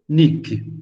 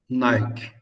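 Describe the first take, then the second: First: The first vowel sounds like 'ee'. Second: The first vowel sounds like 'eye'. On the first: This is how the name is literally written. "na verdade está escrito Nick" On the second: This is how everyone reads the brand name. "todo mundo lê Nike"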